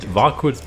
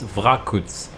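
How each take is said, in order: First: Varkuts said with the R after the A, "var-koots"; old mispronunciation. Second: Vrakuts said with the R straight after the V, "vra-koots"; corrected pronunciation. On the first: Caster apologizes for how he always pronounced it, old mispronunciation. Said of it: "I always pronounced it Varkuts". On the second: Caster corrects himself on the player's name, corrected pronunciation. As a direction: say Vrakuts slowly, opening on "vra". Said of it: "but it's Vrakuts". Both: Shown as a demonstration.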